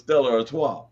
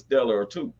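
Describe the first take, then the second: First: The name ends sounding like 'Artois'. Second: The name ends sounding like 'or two'. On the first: The speaker calls it right. "they had to tell me that it was Stella Artois" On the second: The speaker calls it wrong. "I used to call it Stella or two"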